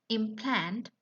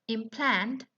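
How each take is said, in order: Both takes have the same delivery.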